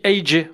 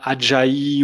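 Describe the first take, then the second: First: The name is said as two separate letters. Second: The name is said as one three-syllable word. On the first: The speaker calls it right. "on dit A J" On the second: The speaker calls it wrong. "on dit pas Ajayi"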